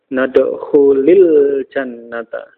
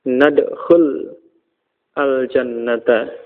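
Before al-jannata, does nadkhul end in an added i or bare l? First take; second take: added i; bare l. First: An i vowel links nadkhul to jannata. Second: The l of nadkhul has no vowel after it. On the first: This is how the phrase is actually read aloud. "supaya tidak bertemu dua sukun, nadkhulil jannata" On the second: This is the underlying grammatical form. "asalnya jazm, ya, dengan tanda sukun, nadkhul, lamnya sukun"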